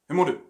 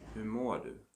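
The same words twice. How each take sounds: First: It is said very fast and abruptly. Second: It is said slowly and carefully.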